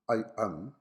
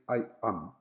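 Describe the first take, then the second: No difference in how they are said.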